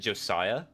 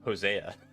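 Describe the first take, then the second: First: The name begins with a J sound. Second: The name begins with an H sound. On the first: The speaker calls it right. "Correct, is with Joe" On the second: The speaker calls it wrong. "say it the Spanish way"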